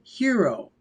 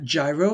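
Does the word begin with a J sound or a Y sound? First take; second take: Y sound; J sound. First: The word begins with a Y sound. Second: The word begins with a J sound. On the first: The speaker calls it right. "but it is actually hero" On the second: The speaker calls it wrong. "A lot of people pronounce that gyro"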